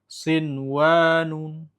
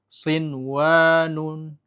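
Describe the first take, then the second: No difference in how they are said.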